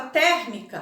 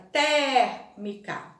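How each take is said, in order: First: Said in the usual way. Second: "Térmica" very slow, long open É in TÉR. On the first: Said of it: "A palavra". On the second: Shown as a demonstration. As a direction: stretch the open first vowel of "Térmica". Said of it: "ela é mais aberta".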